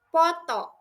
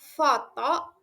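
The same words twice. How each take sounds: First: It begins with a sound other than F. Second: It begins with a breathy F, lip on teeth. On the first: The speaker calls it wrong. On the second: The speaker calls it right. "Contoh yang benar"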